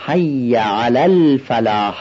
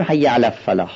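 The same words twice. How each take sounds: First: حی علی الفلاح with the لام of الفلاح said clearly and slowly; slow down and sound the لام in الفلاح; clear lam. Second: حی علی الفلاح with the لام of الفلاح swallowed; wrong pronunciation. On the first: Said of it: "با عنایت این لام رو تلفظ کنید". (لام الفلاح واضح و شمرده) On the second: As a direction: slur الفلاح as a-ffalah. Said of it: "نمیشه بگیم". (تلفظ نادرست الفلاح بدون لام) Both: Shown as a demonstration.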